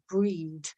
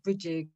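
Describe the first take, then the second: First: The name sounds like breed, one syllable. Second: The name sounds like Bridget, two syllables. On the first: This is the original Gaelic way. The speaker calls it right. "she's actually pronounced Gaelic Breed" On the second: This is the common anglicized way. The speaker calls it wrong. "she's often pronounced Bridget"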